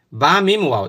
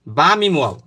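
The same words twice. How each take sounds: The two takes are said the same way.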